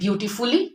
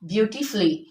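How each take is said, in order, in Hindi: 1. अंत वाला स्वर साफ़ बोला जाता है। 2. अंत वाला स्वर मौन रहता है। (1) "तो it is wrong. Don't pronounce pronounce यू over here." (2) "U is silent in all these words"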